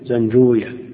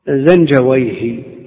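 First: The name ends with the sound 'wiya'. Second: The name ends with the sound 'wayh'. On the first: This is how hadith scholars say it. The speaker calls it wrong. "أما أهل الحديث فيكون" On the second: This is how language scholars say it. The speaker calls it right. "هكذا تنطق عند أهل اللغة"

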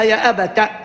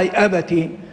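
First: The t is followed by an a vowel. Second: The t is followed by an i vowel. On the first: The word is not in the possessive form. "يقرأها بفتح التاء" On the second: The word is possessed, meaning my father. "يقروا فيها يا ابتي على اساس انها مضافه"

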